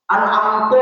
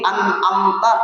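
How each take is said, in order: First: The word ends with a 'u' vowel. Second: The word ends with an 'a' vowel.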